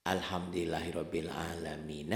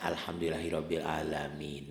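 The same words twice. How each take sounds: The two takes are said the same way.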